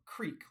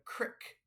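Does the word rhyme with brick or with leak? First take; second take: leak; brick. First: The vowel is long, rhyming with leak. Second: The vowel is short, rhyming with brick. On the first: This is the standard way of saying it. "instead of a creek" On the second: This is the local Midwestern way of saying it. "call it a crick"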